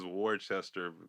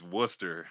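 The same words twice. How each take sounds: First: Every written syllable of the word is sounded out. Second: The word is shortened, with letters left silent. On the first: The speaker calls it wrong. "everybody says Worcester because that's how it's spelled" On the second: The speaker calls it right. "they be sneaky with that one, but it's Worcester"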